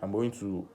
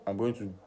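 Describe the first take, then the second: No difference in how they are said.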